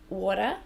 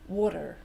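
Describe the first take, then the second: First: A soft t like d, and no r. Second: A d-like t, and a sounded final r. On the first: "halfway between a T and a D. And the R, we don't use it" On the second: "they change the T to a D, like us, but they do say the R sound"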